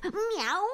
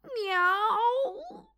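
First: High rising teasing “Miau”; playful meow. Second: High, long rising cry of “Miau”; yowling meow. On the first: Phil meows teasingly at the mouse, high rise. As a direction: toss off a cheeky rising “Miau”. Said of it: "odparł kot". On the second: Bill yowls as he falls in the puddle, high cry. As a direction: yowl in dismay as you land in mud. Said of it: "krzyknął Bill". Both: Acted.

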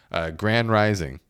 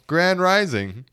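First: Said in the usual way. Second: High, lilting mock greeting; mocking grand rising. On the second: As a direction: send it up, rising at the end. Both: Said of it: "For example".

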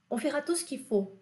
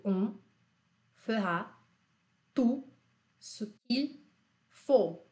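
First: Said in the usual way. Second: Each word apart, with pauses; slow word by word. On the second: Shown as a demonstration. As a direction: spell it out word by word for repeating. (palavra por palavra, com pausas) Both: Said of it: "Repete comigo".

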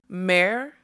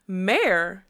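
First: Loud, rising indignant cry; affronted unicorn's loud question; shrill trumpeting. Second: Loud, indignant demand; affronted, forceful question. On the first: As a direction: trumpet it in outraged disbelief. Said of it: "trumpeted the word so shrilly". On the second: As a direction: demand an answer, pitch leaping mid-word. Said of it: "she demanded". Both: A narrator's reading.

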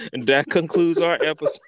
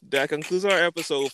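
First: Laughing sign-off. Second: Said in the usual way. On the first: Real, not acted.

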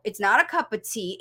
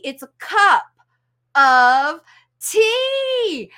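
First: "cup of tea" as one three-syllable word; run together. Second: CUP... OF... TEA, each punched loud with gaps; separate words. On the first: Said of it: "three-syllable word called cup of tea". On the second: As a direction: break "cup of tea" apart, TEA soaring high. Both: Shown as a demonstration.

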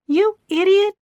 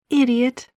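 First: High, loud furious yell. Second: Higher, louder scornful insult. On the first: Gina yells at Keith after slapping him, furious. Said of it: "she yelled". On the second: Gina insults Keith, scornful. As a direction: spit the insult at him. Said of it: "Gina replied". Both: A narrator's reading.

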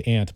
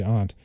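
First: "aunt" said like the insect ant. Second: "aunt" with an open ah vowel; aunt as "ahnt". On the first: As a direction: say "aunt" with the vowel of "cat". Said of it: "I usually say aunt". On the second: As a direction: say "aunt" to rhyme with "font". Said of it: "sometimes people say aunt". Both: Shown as a demonstration.

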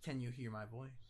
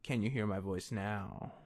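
First: Distant, faint voice off the mic; speaking away from the microphone; far from mic. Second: Close to mic. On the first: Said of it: "Come closer to the microphone". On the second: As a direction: clear close-up voice, slower. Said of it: "Oh, that's a lot better". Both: Real, not acted.

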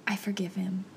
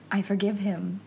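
First: Near-whispered, breath-only forgiveness; hushed realization. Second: Said in the usual way. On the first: Retold or imitated. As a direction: whisper it as it first dawns on you. Quiet dawning realization, then said aloud.

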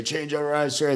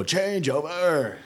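First: Quick clipped recruit response; recruit reply. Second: Slow, high drawn-out command call; drill command. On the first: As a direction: snap it back as the recruit. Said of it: "then you say". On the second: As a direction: stretch it out like a drill order. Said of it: "they'll go". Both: Retold or imitated.

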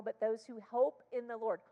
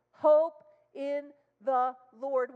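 First: Said in the usual way. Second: Slow, high, loud repeat; emphatic proclaim. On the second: Real, not acted. Preacher repeating the verse to the church, slow and loud. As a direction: drive the words home slowly.

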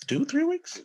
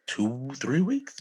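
First: High incredulous squeak; high squeaky repeat. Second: Said in the usual way. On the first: Shown as a demonstration. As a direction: jump way up in pitch in disbelief.

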